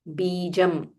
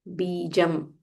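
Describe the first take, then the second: The two takes are said the same way.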